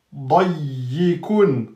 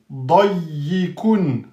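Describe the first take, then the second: No difference in how they are said.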